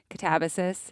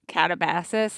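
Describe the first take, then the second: First: It is said unlike Calabasas. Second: It is said to sound like Calabasas. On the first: The speaker calls it right. "Melody has been coaching me" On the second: The speaker calls it wrong. "I always pronounced it Catabasis, like Calabasas or something horrible"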